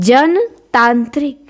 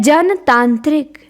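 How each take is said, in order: Both takes have the same delivery.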